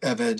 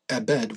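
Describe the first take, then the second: First: The middle consonant is a V sound. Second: The middle consonant is a B sound. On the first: It is read as it appears in the text. "both of them have the V sound" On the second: It is the one dictionary form used everywhere. "I say it Ebed with a B"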